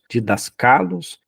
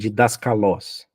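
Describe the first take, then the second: First: The stress is on the penultimate syllable. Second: The stress is on the last syllable.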